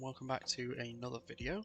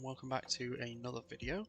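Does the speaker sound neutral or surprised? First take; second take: surprised; surprised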